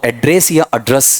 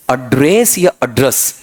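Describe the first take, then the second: First: एड्रेस first one way, then the other, set side by side; two pronunciations. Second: एड्रेस said twice slowly, comparing the a sounds; slow contrast of the two एड्रेस; two pronunciations, slowed. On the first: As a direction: contrast the two एड्रेस versions. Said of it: "इसका उच्चारण कर देना". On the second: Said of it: "शुरू में भी ए और बीच में भी ए". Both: Shown as a demonstration.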